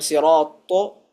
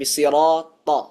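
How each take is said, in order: First: The final vowel is rounded with pushed-out lips. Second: The final vowel is open without rounded lips. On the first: The speaker calls it wrong. "jangan sampai sirato" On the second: The speaker calls it right. "tapi sirata"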